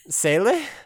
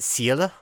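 First: It is said as the German word Seele. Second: It is said like the English word seal. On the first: The speaker calls it right. "It's Seele. it's a German word" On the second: The speaker calls it wrong. "It's not even pronounced seal"

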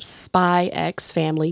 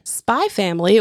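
First: The title is said with the letter X. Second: The title is said without the letter X. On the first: The speaker calls it wrong. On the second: The speaker calls it right.

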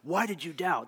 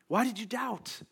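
First: It sounds harsh and rebuking. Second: It sounds gentle and encouraging.

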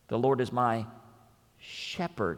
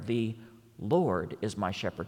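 First: The word shepherd is stressed. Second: The word Lord is stressed. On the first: He guides and leads. "He guides me" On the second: It is this one and no one else. "no one else"

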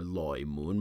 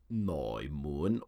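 First: The first word begins with an L sound. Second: The first word begins with an N sound. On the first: "They change it to an L" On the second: "they don't like to pronounce the sound of N"

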